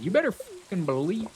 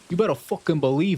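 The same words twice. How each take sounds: First: It is spoken in a Southern-sounding accent. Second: It is spoken in an Italian American accent. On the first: The speaker calls it wrong. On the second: The speaker calls it right.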